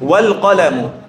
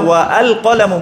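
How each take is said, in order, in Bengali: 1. 'al' এর স্বরধ্বনিটি বাদ যায়, 'wal' এর সাথে মিশে যায়। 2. 'al' এর স্বরধ্বনিটি আলাদাভাবে উচ্চারিত হয়। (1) "আমি কি বলছি?" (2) "আমি কিন্তু বলছি না"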